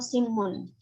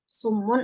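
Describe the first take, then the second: First: The first vowel is a front i sound. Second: The first vowel is a rounded u sound. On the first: "dikasrah sinnya" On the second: "dengan didhamah sinnya"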